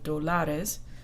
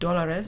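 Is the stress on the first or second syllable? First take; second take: second; first. First: The stress is on the second syllable. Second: The stress is on the first syllable. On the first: The speaker calls it wrong. "instead of dólares" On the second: The speaker calls it right. "There's an accent mark on this O, so you'll say dólares"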